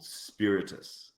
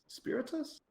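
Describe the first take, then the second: First: Said in the usual way. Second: Spiritus? pitched way up as a question; doubtful of the guild name, Spiritus? rising high; unsure pronunciation. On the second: Shown as a demonstration. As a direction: check the word Spiritus with a high questioning rise.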